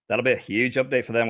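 It is spoken in a put-on character voice. "We're going to do these as heretic instead"

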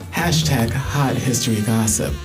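It is said in a sultry voice.

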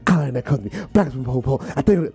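It is recited in an intense, rhythmic cadence.

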